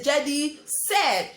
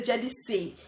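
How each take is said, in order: First: "said" set apart and punched as the correction; stress on said. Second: Said in the usual way. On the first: Shown as a demonstration. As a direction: lean firmly on "said". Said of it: "I didn't say Jedi say". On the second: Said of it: "That is why you see said".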